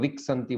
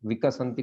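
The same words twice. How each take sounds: First: The final vowel is cut off Hindi-style. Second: The final vowel is clearly pronounced. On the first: The speaker calls it wrong. "बोल रहे हैं। तो ये हिंदी में होता है ऐसा।" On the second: The speaker calls it right. "विकसंती को"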